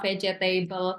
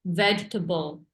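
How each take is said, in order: First: The word is said with four syllables. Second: The word is said with three syllables. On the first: The speaker calls it wrong. "empat ya" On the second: The speaker calls it right. "Padahal tiga doang"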